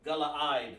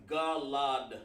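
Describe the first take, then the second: First: GALAAD in three syllables, ga-la-AD; corrected pronunciation. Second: GALAD said in two syllables; mistaken pronunciation. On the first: Teacher correcting his Hebrew word for class, corrected pronunciation. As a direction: say Galaad, splitting the final vowels. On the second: Teacher misreading the Hebrew word to class, mistaken pronunciation. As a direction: say Galad, with one vowel after the L. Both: Shown as a demonstration. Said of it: "I'm sorry".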